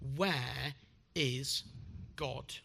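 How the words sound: It is said sternly but least so.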